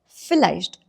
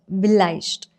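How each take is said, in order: First: The word begins with an f sound. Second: The word begins with a v sound. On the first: The speaker calls it right. "it is pronounced with four sound" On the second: The speaker calls it wrong. "not vielleicht"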